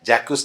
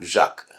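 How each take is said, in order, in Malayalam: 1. ഇത് j എന്നതിലാണ് തുടങ്ങുന്നത്, -kwes എന്നതിലാണ് അവസാനിക്കുന്നത്. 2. ഇത് zh ശബ്ദത്തിലാണ് തുടങ്ങുന്നത്, k-യിലാണ് അവസാനിക്കുന്നത്. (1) "ഫ്രഞ്ചുകാരൻ ഒരിക്കലും ജാക്വസ് എന്ന് വായിക്കില്ല" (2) "ഴാക്ക് എന്നേ വായിക്കൂ"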